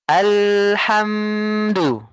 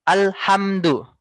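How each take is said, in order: First: Alhamdu with the voice held unbroken through hm, slow; flowing alhamdu. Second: Alhamdu with the hm cut short and jerked; choppy alhamdu. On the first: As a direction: let alhamdu flow without a stop. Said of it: "suaranya itu tidak putus ya". (alhamdu mengalir, tidak putus) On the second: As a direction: brake hard on the sukun in Alhamdu. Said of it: "Jangan bacanya seperti ini". (Alhamdu dibaca direm, terputus) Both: Shown as a demonstration.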